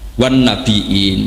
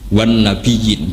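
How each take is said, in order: First: The word has a glottal stop, no y sound. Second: The word has a y sound, no glottal stop. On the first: This is the reading of a Medina reciter. "Nabiun pakai hamzah" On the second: This is the Quraysh dialect form. "orang Quraisy itu nggak mau baca hamzah"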